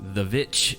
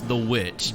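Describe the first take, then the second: First: The word begins with a V sound. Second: The word begins with a W sound. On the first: It follows the title's stylized spelling. "I just have to say it that way" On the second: It is the ordinary word. "I know it's The Witch"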